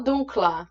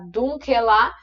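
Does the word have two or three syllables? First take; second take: two; three. First: No vowel sounds between the k and l. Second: An extra vowel sounds between the k and l. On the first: The speaker calls it right. "o E a gente também vai tirar" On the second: The speaker calls it wrong. "Em vez de eu falar dunkelar"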